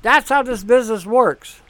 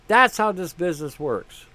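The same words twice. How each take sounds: First: Louder, punched delivery on That's; That's stressed loud, the whole line pressed out; emphatic. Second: Said in the usual way. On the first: Shown as a demonstration. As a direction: hit That's hard and declare it.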